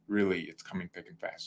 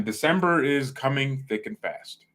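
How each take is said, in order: First: Quiet aside. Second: Said in the usual way. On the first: Shown as a demonstration.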